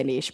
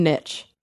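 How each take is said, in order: First: Long ee and a soft "sh" ending on niche; niche as "neesh". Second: Short i and a "tch" ending on niche; niche as "nitch". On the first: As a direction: say niche to rhyme with leash. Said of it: "I never say niche". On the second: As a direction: say niche to rhyme with rich. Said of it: "I'm going niche". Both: Shown as a demonstration.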